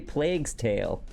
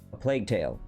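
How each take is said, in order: First: Plague is said with an s sound after it. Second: Plague is said with no s sound after it. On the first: The speaker calls it wrong. "I didn't add the S to the end" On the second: The speaker calls it right. "I said it right this time"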